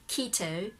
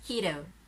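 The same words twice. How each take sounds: First: It has a British accent with a clear T. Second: It has an American accent with a softer T. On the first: "that British keto" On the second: "But Americans"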